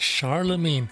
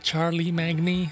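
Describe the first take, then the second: First: The name is said like 'Charlemagne'. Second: The name is said like 'Charlie Magny'. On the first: The speaker calls it right. "this is the Charlemagne" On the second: The speaker calls it wrong. "this is not the Charlie Magny"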